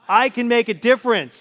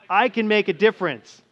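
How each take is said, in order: First: It is said excitedly, with energy. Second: It is said earnestly, with conviction.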